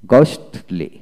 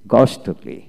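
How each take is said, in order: Both takes have the same delivery.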